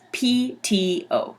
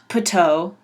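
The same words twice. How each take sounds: First: Each letter name is said separately. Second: It is run together as one word. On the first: The speaker calls it right. "You just say the names of the letters" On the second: The speaker calls it wrong. "it's not P T O"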